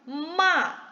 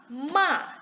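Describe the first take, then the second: No difference in how they are said.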